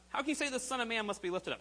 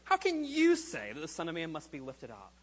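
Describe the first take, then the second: First: The word 'you' carries no special stress. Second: The word 'you' is strongly stressed.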